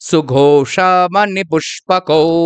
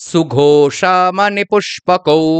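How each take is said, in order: No difference in how they are said.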